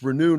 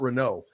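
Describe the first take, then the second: First: The last syllable ends in an oo sound. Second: The last syllable ends in an oh sound. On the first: The speaker calls it right. "It's Renew" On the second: The speaker calls it wrong. "not Renault"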